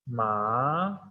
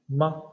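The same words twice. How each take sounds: First: The syllable is said with the second tone. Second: The syllable is said with the neutral tone. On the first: It means sesame. "the second tone with ma is ma" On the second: It marks a question at the end of a sentence. "the last one is the neutral tone"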